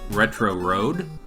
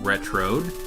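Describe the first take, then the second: First: It is said as two separate words. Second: It is said run together as one word.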